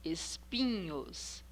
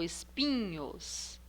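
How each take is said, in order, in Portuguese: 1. A sílaba tônica é a penúltima. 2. A sílaba tônica é a penúltima.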